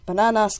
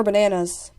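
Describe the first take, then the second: First: "Bananas" said with Spanish vowels, open "ah" in each syllable; Spanish pronunciation. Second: Said in the usual way. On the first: Shown as a demonstration. Listing Spanish words for the fruit, "Bananas" in Spanish pronunciation.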